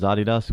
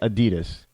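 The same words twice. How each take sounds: First: It is said the European way. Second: It is said the American way. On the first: "that's how they pronounce it in Europe" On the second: "We say Adidas"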